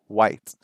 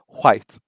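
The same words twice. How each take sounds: First: It begins with a plain W sound. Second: It begins with a breathy HW sound. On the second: "some people who still have like an H sound"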